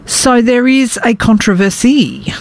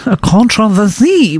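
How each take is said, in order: First: Said in the usual way. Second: Mock French pronunciation of controversy, stress on the last syllable; bad French accent. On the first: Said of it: "which is how you say controversy". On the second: Shown as a demonstration. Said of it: "how you say controversy with a bad French accent".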